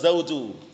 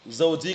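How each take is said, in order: First: The word ends with a 'u' vowel. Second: The word ends with an 'i' vowel. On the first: The speaker calls it right. "yang benar zauju" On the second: The speaker calls it wrong. "Zauji keliru"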